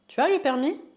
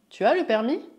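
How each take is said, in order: No difference in how they are said.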